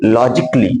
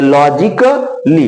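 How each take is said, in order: First: Logically said as "loj-ik-lee", the ka quick; correct pronunciation. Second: Logically drawn out slowly, "ka" barely touched; slow careful demo. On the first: Teacher modelling logically with a quick ka. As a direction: clip the ka in logically. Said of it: "पूरा का नहीं बोलना है". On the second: Teacher slowly modelling logically for pupils. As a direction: stretch logically, slurring the silent a. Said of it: "थोड़ा सा का जल्दी से बोलना पड़ेगा". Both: Shown as a demonstration.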